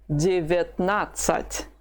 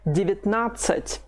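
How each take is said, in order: First: Девятнадцать said slowly, each syllable clear, reduced vowels as i; slow teaching demo. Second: Said in the usual way. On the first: Shown as a demonstration. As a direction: spell out Девятнадцать slowly for a learner. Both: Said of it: "Both the first and the second vowels, have been reduced".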